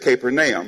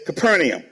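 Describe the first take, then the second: First: The name gets its original, village-of-Nahum pronunciation. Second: The name gets the usual American pronunciation. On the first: "The correct way of pronouncing it really is Capernaum" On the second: "in America, we say it's Capernaum"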